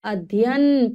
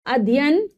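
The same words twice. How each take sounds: First: "अध्ययन" with fuller DHY, adh-yayan; correct pronunciation. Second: "अध्ययन" shortened to adiyan, rising; mispronounced word. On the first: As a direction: say adh-ya-yan for "अध्ययन", falling at the end. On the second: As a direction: say "अध्ययन" wrongly as a-di-yan. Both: Shown as a demonstration. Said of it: "पूरा यह आते हैं".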